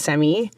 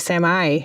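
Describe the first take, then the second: First: It is said the Canadian way. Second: It is said the American way. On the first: "instead of semi" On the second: "you say semi"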